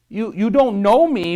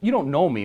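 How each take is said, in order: First: The voice is high, hesitant and insecure. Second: The voice is steady, lower and confident. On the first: The caller lacks confidence. The speaker calls it wrong. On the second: The caller sounds trustworthy. The speaker calls it right.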